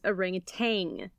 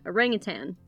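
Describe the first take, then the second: First: The word ends with an 'ng' sound. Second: The word ends with an 'n' sound. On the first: "I spent the bulk of my life pronouncing the word orangutan as orangutang" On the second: "I should probably just pronounce it orangutan"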